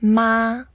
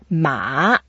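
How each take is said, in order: First: The pitch stays high and level. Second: The pitch dips down, then rises. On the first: "So first tone" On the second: "So we go down a bit and then up"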